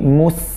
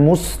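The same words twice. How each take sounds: First: The s sound is light and thin. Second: The s sound is heavy and thick. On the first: The speaker calls it right. "jangan tebal" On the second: The speaker calls it wrong. "Jangan mus"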